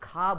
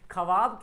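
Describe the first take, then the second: First: No 'w' sound follows the first consonant. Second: A 'w' sound follows the first consonant. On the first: The speaker calls it right. "ख्वाब होता है" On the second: The speaker calls it wrong. "बहुत लोग ख्वाब बोलते हैं"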